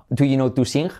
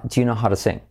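First: Said in the usual way. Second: "Do you know how to sing?" as chu-no-haro-sing, all linked; "Do you" squeezed to "chu" and "how to" to "haro"; linked native. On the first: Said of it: "Fijaos qué diferencia de". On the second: Shown as a demonstration. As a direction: glide it together like a native speaker. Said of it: "Fijaos qué diferencia".

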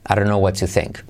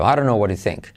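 First: "what to think" with a crisp T in "to"; linked "I don't know", careful "what to think"; clear T. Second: "I don't know what to think" as "I ron know wara think"; flapped, run-together "don't" and "what to"; linked soft R. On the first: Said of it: "se puede convertir en R suave". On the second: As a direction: tap the D and T like soft Rs. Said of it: "Quédate con eso". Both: Shown as a demonstration.

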